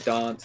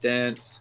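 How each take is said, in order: First: It is said with a South Australian vowel. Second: It is said with an other-Australian vowel. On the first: "we have this like A thing that's different to the other Australians, so we say dance" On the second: "instead of dance"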